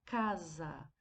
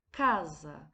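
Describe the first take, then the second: First: Said in the usual way. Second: "Casa" with CA punched louder, lower and drawn out; stress on first syllable. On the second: Shown as a demonstration. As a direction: hit the CA of "Casa" hard for the class. ("Casa" com a sílaba CA bem forte) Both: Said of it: "Notamos que a sílaba K foi pronunciada mais fortemente".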